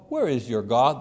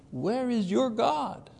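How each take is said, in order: First: Said in the usual way. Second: High, slow mocking taunt on "your God". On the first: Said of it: "There's the taunting". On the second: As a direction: draw out "Where is your God" as a jeer. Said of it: "allows his enemies to taunt him".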